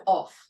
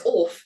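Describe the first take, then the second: First: Said in the usual way. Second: "off" said posh, like orf, with a long open vowel; "off" said the royal way, as orf. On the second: Shown as a demonstration. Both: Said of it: "One who says "off" instead of "off".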